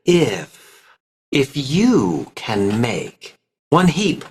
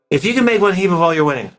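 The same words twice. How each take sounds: First: Slow, stretched vowels, glued words; drawn out vowels. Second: Fast, rushed, careless line reading; rushed unpracticed reading. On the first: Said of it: "stretch out the vowels a little bit". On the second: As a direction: rattle it off without interest. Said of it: "If I was unpracticed, I would go". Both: Shown as a demonstration.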